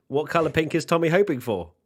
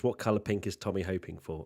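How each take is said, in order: First: Loud, higher-pitched reading of a question; raised read-out. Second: Said in the usual way. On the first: Real, not acted. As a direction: put the question out loud and high. Chat question put to Tommy again.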